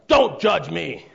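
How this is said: It is said in a harsh, scornful tone. The speaker is contemptuous and defensive. "in more of a scornful tone"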